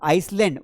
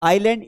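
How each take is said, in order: First: An s sound is pronounced before the l. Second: No s sound is pronounced before the l. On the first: The speaker calls it wrong. "वो आइसलैंड नहीं है बेटा" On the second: The speaker calls it right. "ये आइलैंड है, it is not आइसलैंड"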